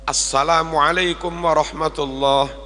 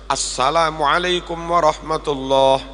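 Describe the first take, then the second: The two takes are said the same way.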